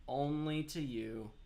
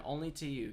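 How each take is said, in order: First: "Only to you" stretched slowly; slow pointed "Only to you"; slow, drawn-out. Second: Said in the usual way. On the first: Shown as a demonstration. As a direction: draw out "Only to you" deliberately.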